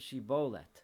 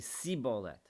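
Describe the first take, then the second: First: The word begins with an sh sound. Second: The word begins with an s sound. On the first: The speaker is from Gilad. The speaker calls it right. "say it with a sh, shin sound" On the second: The speaker is from Ephraim. The speaker calls it wrong. "he would say sibolet, because that's how the people of Ephraim used to talk"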